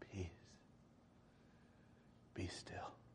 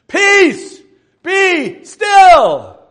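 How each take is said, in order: First: It is spoken quietly and calmly. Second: It is shouted loudly.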